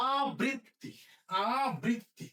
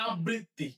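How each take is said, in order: First: আবৃত্তি as aa-brit-ti with a long open aa; corrected pronunciation. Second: আবৃত্তি run together as ab-britti; common mispronunciation. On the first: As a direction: hold the আ of আবৃত্তি, then brit-ti. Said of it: "না, এটা হবে কি?". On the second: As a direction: close the first syllable of আবৃত্তি on b, saying ab-britti. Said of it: "আমরা প্রায়ই ভুল করি". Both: Shown as a demonstration.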